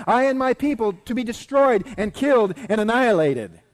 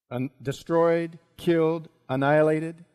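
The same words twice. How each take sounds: First: Loud, high-pitched denunciation; crying out. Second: Measured echo, word by word; dawning recognition. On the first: Queen crying out that her people are doomed, loud and high. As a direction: cry out each fate forcefully. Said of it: "she cried". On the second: Haman recognising words from his own edict, halting echo. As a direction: repeat each word separately, with pauses between. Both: Acted.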